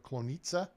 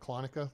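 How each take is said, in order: First: The name is said in a Polish way. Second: The name is said in an anglicized way. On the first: "That's what uh, Sir Jay calls it. So that may be the pr- correct pronunciation as far as uh, the Poles are concerned" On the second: "like I said"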